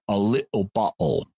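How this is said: The t sounds become glottal stops.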